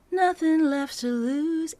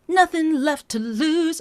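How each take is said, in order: First: "Nothing left to lose" sung high and slow, the N underdone; too weak. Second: "Nothing left to lose" sung high and loud, "Nothing" pushed hard; overdone. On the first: Coach showing a too-mild start. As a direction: leave "Nothing" under-stressed. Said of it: "I'm not going". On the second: Coach showing the overdone start. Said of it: "I'm not going that far". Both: Shown as a demonstration.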